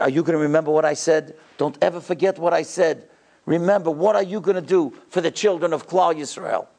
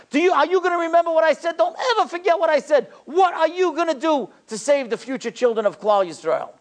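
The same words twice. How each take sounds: First: Measured, personal exhortation in an even voice; direct, earnest charge. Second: High-pitched, impassioned exhortation; lion-like passion. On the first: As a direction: put it straight to one listener, without crying out. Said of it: "he looked me straight in the face". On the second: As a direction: drive each question home in a ringing high cry. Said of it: "He looked like a lion". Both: Retold or imitated.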